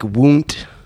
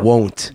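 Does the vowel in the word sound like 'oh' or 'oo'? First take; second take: oo; oh. First: The vowel sounds like 'oo', as in woo. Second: The vowel is the usual 'oh' sound. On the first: "like W, like woo, like won't" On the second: "Instead of won't"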